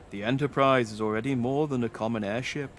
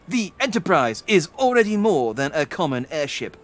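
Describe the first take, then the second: First: It is said in an Obi-Wan voice. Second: It is said in a Kirk voice.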